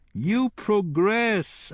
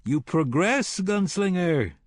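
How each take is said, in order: First: High, very slow, gloating repeat of "progress"; mocking admiration, savouring it; drawn-out mock praise. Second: Taunting praise. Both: A narrator's reading.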